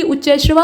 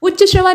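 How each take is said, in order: First: उच्च श्रवा said 'uch-chai-shrava'; उच्च with ऐ ending. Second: उच्च श्रवा said 'uch-cha-shrava'; उच्च श्रवा with short vowel. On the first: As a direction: open the end of उच्च into 'chai'. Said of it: "बल्कि उच्च श्रवा होता है". (उच्च श्रवा को 'उच्चैःश्रवा' बोलें) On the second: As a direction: keep the end of उच्च a short 'a'. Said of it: "नहीं बल्कि". (उच्च श्रवा में 'च्च' सादा बोलें) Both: Shown as a demonstration.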